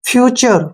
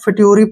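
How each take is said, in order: First: The middle consonant is a ch sound. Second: The middle consonant is a plain t sound. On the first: The speaker calls it right. "टी का मतलब लगेगा यहाँ चे" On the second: The speaker calls it wrong. "फिट्यूरी पढ़ते हैं तो गलत हो जाता है"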